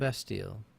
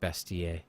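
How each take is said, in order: First: It is said in a plain English accent. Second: It is said in a French accent.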